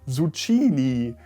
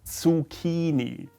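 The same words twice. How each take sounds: First: The word does not begin with 'ts'. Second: The word begins with 'ts', like tsunami. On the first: The speaker calls it wrong. "It's not Zucchini, as many Germans call it" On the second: The speaker calls it right. "like tsunami"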